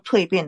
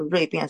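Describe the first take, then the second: First: The word begins with a t sound. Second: The word begins with an r sound. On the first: The speaker calls it right. "我们叫蜕变啦" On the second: The speaker calls it wrong. "你们不要叫锐变什么"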